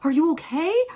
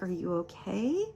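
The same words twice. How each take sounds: First: It is said in a panicked, frantic way. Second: It is said in a calm, gentle way.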